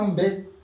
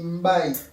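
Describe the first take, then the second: First: Some letters are not sounded separately. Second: Every letter is sounded separately. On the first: The speaker calls it wrong. "tu ne dis pas Mbé" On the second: The speaker calls it right. "tu dis Mbaye"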